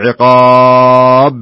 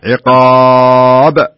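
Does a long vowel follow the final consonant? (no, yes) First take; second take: yes; no. First: A long extra vowel follows the final consonant. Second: The final consonant bounces without an added vowel. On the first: The speaker calls it wrong. "الخطأ أقول عقاب... هذه ألف تعتبر زيادة" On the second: The speaker calls it right. "عقاب هذه قلقلة"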